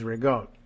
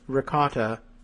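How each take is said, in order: First: It is said the northern New Jersey Italian way. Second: It is said with a standard American pronunciation.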